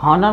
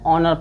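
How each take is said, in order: First: The word begins with an audible h sound. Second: The word begins directly with a vowel sound. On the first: The speaker calls it wrong. "यच को हॉनर मन नहीं पढ़ना है" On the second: The speaker calls it right. "इसको क्या पढ़ना है ऑनर पढ़ना है"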